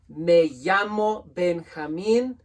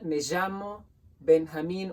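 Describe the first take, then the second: First: The 'll' sounds like an English y. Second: The 'll' sounds like a soft zh. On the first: "Two L's make a Y sound in Spanish" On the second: "like a sh meets a j sound"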